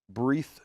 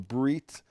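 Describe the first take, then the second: First: The word ends with a th sound. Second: The word ends with a t sound. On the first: "When it doesn't have a dot, it's a th" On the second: "when it has a dot in it, is a t"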